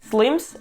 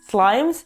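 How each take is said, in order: First: The i vowel is short. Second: The i vowel is long. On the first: The speaker calls it right. "pronounce it correctly with the short I sound" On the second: The speaker calls it wrong. "and not"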